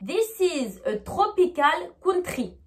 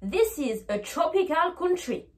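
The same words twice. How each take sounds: First: Slow French-accented English, hard T and French R. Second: TROPICAL and COUNTRY with ch for TR. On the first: Teacher showing the French way, French-accented English. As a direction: read it with a strong French accent. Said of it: "vraiment dit avec une prononciation française". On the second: Teacher showing the changed way, TROPICAL COUNTRY with ch. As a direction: say "chropical counchry" for TROPICAL COUNTRY. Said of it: "je vais devoir changer ma prononciation". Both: Shown as a demonstration.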